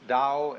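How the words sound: It is said with a Mandarin pronunciation.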